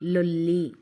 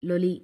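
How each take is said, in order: First: The l sound is long and doubled. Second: The l sound is short and single. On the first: It is a meaningful word. The speaker calls it right. "వత్తి పట్టి పలికి చదివితేనే దానికి ఒక meaning అనేది వస్తుంది" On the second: It has no meaning. The speaker calls it wrong. "ఒత్తి పట్టి చదవకపోతే ఎలా ఉంటుందో చూడండి"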